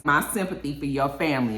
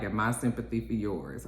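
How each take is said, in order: First: Said in the usual way. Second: Low, softly delivered reply; subdued acted comeback; muted retort. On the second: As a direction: drop it low and quiet, as a parting retort.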